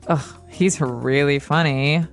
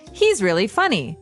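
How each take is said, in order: First: It is said sarcastically, meaning the opposite. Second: It is said sincerely, meaning he is funny.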